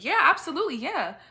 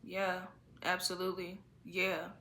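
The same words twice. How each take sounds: First: The tone is lifted and sounds engaged. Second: The tone is flat and sounds unengaged. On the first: The speaker calls it right. "lift up the tone of it just to sound a little more engaged" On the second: The speaker calls it wrong. "than the person that's in my face"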